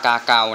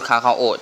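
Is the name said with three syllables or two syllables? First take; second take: two; three. First: It is said in two syllables, 'ga-gao'. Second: It is said in three syllables, 'kha-kha-o'. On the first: The speaker calls it right. "ที่จริงมันอ่านว่ากาเกานะ" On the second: The speaker calls it wrong. "ผมพูดคาคาโอจนติดแล้ว"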